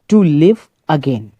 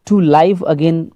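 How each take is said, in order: First: 'Live' is said with a short 'i' vowel. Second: 'Live' is said with a long 'eye' vowel. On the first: The speaker calls it right. "तो इसको to लिव again पढ़ेंगे" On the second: The speaker calls it wrong. "पहली बार इसमें to लाइव again उच्चारण में गया था"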